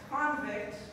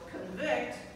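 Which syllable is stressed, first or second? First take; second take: first; second. First: The stress is on the first syllable. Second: The stress is on the second syllable. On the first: It is a noun meaning a prisoner. "is a noun that means a prisoner" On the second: It is a verb meaning to find guilty. "means to find guilty"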